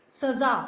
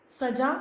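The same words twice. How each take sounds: First: सज़ा with a clear z; with nukta z. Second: सजा said saja, plain j sound. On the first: Teacher contrasts for students: सज़ा with a clear z. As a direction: say सज़ा as saza with z. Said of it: "और सज़ा". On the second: Teacher contrasts for students: सजा with a plain j. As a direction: say सजा with j, no nukta. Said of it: "ज की आवाज़ आती है". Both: Shown as a demonstration.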